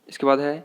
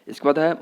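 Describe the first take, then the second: The two takes are said the same way.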